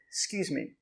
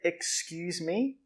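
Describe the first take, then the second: First: The sounds are shortened and run together quickly. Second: Every sound is said fully and carefully. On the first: The speaker calls it right. "we just say" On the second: The speaker calls it wrong. "We don't say"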